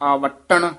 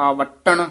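First: The word is said tightly and firmly. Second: The same.

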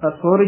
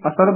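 First: The second vowel is a short 'u'. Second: The second vowel is a short 'a'. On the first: The speaker calls it right. "ਅਸੁਰ ਹੀ ਉਚਾਰਨ ਕਰਨਾ" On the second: The speaker calls it wrong. "ਕਈ ਅਸਰ ਬੋਲ ਜਾਂਦੇ ਹਨ"

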